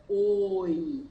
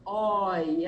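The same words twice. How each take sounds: First: "oi" with a closed O, like "ôi"; drawn-out closed-vowel "oi". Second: "oi" with an open O, like "ói"; lower-pitched, held open "oi"; open vowel. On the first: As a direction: round and narrow the O in a held "oi". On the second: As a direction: draw out "oi" with the O wide open. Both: Shown as a demonstration.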